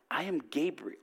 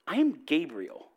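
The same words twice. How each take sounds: First: It is read in a plain, straight tone. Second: It is read in a mocking, sarcastic tone.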